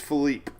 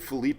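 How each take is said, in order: First: The name ends without a final vowel sound. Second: The name ends with a final vowel sound. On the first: The speaker calls it right. "There's no E at the end" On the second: The speaker calls it wrong. "I've been saying Felipe the whole time"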